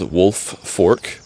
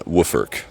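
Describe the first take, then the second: First: Two separate words, with the L sound pronounced. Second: One blended word, with the L sound dropped. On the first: "it's spelled wolf fork" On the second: "another way of saying it other than wooffork"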